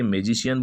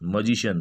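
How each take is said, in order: First: The first syllable has a full 'ay' vowel. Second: The first syllable has a short 'uh' vowel. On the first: The speaker calls it wrong. "मैजिशियन बोलते हैं" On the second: The speaker calls it right. "जबकि होता क्या है मजिशियन"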